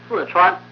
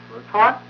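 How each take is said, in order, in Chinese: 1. 第二个音节开头是卷舌音 ch。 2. 第二个音节开头是平舌音 c。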